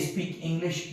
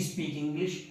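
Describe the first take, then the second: The two takes are said the same way.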